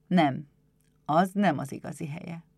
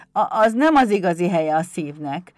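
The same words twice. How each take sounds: First: Calm, reassuring agreement; gentle master. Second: Loud, halting imp admission; kobold voice. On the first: Éder strokes the kobold's head, calm and gentle. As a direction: agree gently, in a natural adult voice. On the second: Pumukli looks up at Éder, loud halting kobold voice. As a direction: admit it in a loud little goblin voice. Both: Acted.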